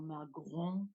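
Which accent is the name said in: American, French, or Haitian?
French. The name is said with a French accent. "if you want to be more French"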